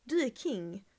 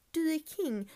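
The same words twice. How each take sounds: First: Said in the usual way. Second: "Du är king." lifted much higher; higher emphatic praise. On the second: Real, not acted. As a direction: hype her up on "Du är king.". ("Du är king." ljusare och peppigare)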